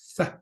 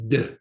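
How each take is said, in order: First: It is a long continuous th sound. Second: It is a short stopped d sound. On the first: "the real pronunciation of a dalet" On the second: "you cannot lengthen a dalad, can you?"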